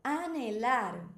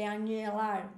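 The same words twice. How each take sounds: First: "Anelar" drawn out, plain N before E; silent H. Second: "anelar" said as "anhelar", with a ny sound; Portuguese NH sound. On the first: Teacher models the word slowly, silent H. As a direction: stretch "Anelar" with no NH sound. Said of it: "ela é muda". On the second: Teacher shows the combination to avoid, NH as ny. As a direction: turn the N of "anelar" into ny. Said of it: "combinação que fazemos no português". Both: Shown as a demonstration.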